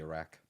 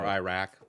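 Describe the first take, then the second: First: The opening I sound is plain, not highlighted. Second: The opening I sound is strongly highlighted. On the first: This is the real way the name is said. "when it's really" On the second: This is the local English way of saying it. "we highlight the I"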